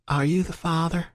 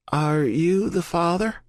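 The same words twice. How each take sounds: First: Gentle Southern nurse, voice pitched higher; soft Southern accent. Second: Slower, higher, soft Southern drawl with a questioning rise; soft Southern accent. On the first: Nurse asks the waiting man, soft Southern accent. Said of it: "the soft Southern accent ask". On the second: Nurse repeats her question to Colton, slow soft Southern accent. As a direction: ask again, patient and Southern. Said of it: "the voice asks again". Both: A narrator's reading.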